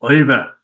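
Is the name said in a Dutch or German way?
German. The name is said with a harder German sound. "If it was German, it would be Eva"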